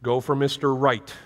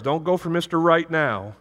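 First: Weight on MISTER so "Mister Right" reads as one name; stress on MISTER. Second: NOW stretched and leaned on at the end of "Mister Right now"; Mister Right NOW, with the weight on the last word; stress on NOW. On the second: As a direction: land the joke on NOW, not on Right. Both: Retold or imitated. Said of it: "he used to always tell his girls".

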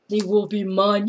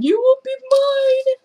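First: Said in the usual way. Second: High squealing claim on the dog; squealed claim. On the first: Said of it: "first take of claim". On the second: Real, not acted. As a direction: squeal it like a promise. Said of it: "second take, squealed".

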